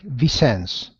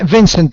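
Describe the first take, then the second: First: The name is pronounced a non-English way. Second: The name is pronounced the English way. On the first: "I pronounce it a little different" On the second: "you may say Vincent, like in English"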